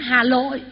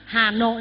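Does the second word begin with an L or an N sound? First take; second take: L; N. First: The second word begins with an L sound. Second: The second word begins with an N sound. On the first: The speaker calls it wrong. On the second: The speaker calls it right.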